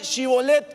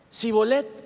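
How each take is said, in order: First: The word begins with a sh sound. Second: The word begins with a plain s sound. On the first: The speaker calls it right. "dígame Shibolet" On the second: The speaker calls it wrong. "no pronunciaban"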